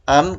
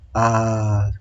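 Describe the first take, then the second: First: The ending closes with an n sound. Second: The ending is a long a vowel. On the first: The reading continues without stopping. "kalau baca terus" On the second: The reading stops here. "kalau diberhentikan"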